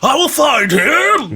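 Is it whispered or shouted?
shouted. It is said loudly, almost shouted.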